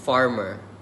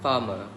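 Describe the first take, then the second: First: The R sounds are clearly pronounced. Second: The R sounds are dropped. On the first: "In a rhotic pronunciation" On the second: "in a non-rhotic pronunciation"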